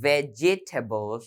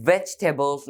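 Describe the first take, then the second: First: "vegetables" in four syllables, VE-ji-TAY-bles; common Bangladeshi mispronunciation. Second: "vegetables" in three syllables, VEJ-tuh-bles; correct pronunciation. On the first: Teacher showing learners how not to say it, mispronounced vegetables. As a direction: sound out the extra "ji" in "vegetables". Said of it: "বাংলাদেশে অনেকেই বলে থাকি যে". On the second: Teacher modelling how vegetables should be said, correct pronunciation. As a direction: say "vegetables" with the middle vowel dropped. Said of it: "কিন্তু এখানে উচ্চারণ হবে". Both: Shown as a demonstration.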